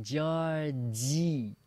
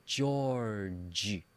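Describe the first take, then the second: First: "Georgie" drawn out with a big smile; big-smile pronunciation. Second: Said in the usual way. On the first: Shown as a demonstration. Teacher shows students the big smile, slow smiled "Georgie". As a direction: stretch "Georgie" slowly, ending on a smiled ee. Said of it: "say with a big smile". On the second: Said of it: "say those names one more time".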